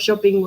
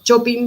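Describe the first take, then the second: First: The word is said with an English pronunciation. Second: The word is said with a Spanish pronunciation. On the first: "instead of shopping" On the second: "pronounce them in Spanish, like shopping"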